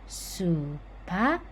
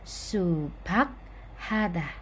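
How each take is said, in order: First: The k and h merge into one aspirated k. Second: The k and h are said slowly and separately. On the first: The speaker calls it right. "pelafalan yang benar adalah" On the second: The speaker calls it wrong. "kalau pelan-pelan"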